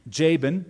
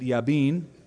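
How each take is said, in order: First: The name begins with an English J sound. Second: The name begins with a Y sound. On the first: This is the usual English way of saying it. "that's how we say it" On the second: This is the Hebrew way of saying it. "The Hebrew pronunciation is usually different than English"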